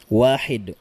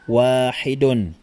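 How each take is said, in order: First: The word ends on the consonant d. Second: The word ends with an added -un syllable. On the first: The word stands alone or ends the sentence. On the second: The full ending is pronounced.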